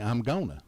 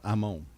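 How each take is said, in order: First: The words are contracted into a shorter form. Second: The words are squeezed into two short syllables. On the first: This is how typical Southerners say it. "typical Southerners will say" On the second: This is how real Southerners say it. "Us real Southerners"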